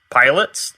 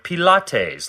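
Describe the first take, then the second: First: It sounds like the word for airplane drivers. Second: It sounds like a fancy French word. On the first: "like an airplane driver" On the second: "like some fancy French drink"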